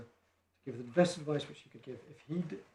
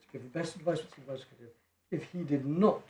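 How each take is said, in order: First: Said in the usual way. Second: Emphatic reading, landing firmly on NOT; stressed reading. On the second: Real, not acted. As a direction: lean hard on "did not" at the end. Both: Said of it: "and I stress this bit".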